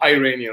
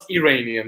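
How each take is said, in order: First: It is pronounced the American way. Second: It is pronounced the non-American way. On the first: "not Iranian" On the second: "other than America, they call us Iranian"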